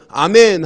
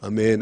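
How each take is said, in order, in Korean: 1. 단어를 단단하고 또렷하게 말했어요. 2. 단어를 희미하고 힘없이 말했어요.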